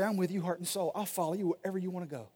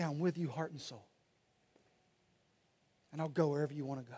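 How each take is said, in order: First: Devoted reply. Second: Softly, a tearful wife's quiet pledge; tender devotion. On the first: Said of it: "They're gonna say". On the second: Wife moved to tears promising to follow her husband, soft and tender. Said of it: "she'll say". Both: Retold or imitated.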